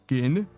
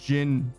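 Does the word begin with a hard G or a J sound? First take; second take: hard G; J sound. First: The word begins with a hard G sound. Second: The word begins with a soft J sound. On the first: The speaker calls it right. "Like the G?" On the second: The speaker calls it wrong. "so not Jin"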